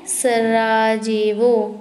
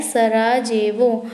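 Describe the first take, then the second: First: Each syllable drawn out slowly; teacher drilling a capital for the class, slowly; slow drilled repeat. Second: Said in the usual way. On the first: Shown as a demonstration. Stretch every syllable. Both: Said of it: "क्या है?".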